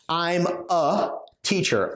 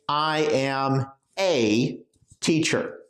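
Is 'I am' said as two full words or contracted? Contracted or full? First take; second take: contracted; full. First: I and am are joined into one short syllable. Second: I and am are said as separate full words. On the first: The speaker calls it right. "We normally say I'm a" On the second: The speaker calls it wrong. "we don't say I am a teacher"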